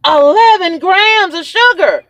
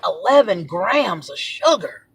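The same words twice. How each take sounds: First: High, slow outraged repeat; freaking out. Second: Slow, drawn-out disclosure; slow reveal. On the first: Real, not acted. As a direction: freak out, stretching each word up high. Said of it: "and I'm freaking out". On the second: Retold or imitated. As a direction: let the damning figure out slowly. First reading of the sugar content.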